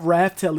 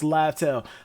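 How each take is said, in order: First: The name begins with an R sound. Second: The name begins with an L sound. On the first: "I'm still calling it Raftel" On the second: "we got the pronunciation for Laftel"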